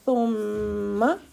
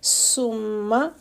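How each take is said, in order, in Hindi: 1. यह नरम th ध्वनि से शुरू होता है। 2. यह सीटी जैसी s ध्वनि से शुरू होता है। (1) "सा है तो हम पढ़ेंगे सुम्मा। सीन जैसी सीटी नहीं आएगी।" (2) "अगर सीन होती तो हम पढ़ते सुम्मा"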